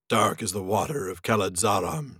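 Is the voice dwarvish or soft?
dwarvish. It is said in a dwarvish voice.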